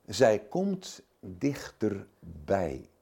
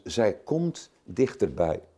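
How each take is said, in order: First: Slow and hushed. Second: Said in the usual way. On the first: Shown as a demonstration.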